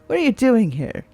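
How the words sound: It is said in a curious tone.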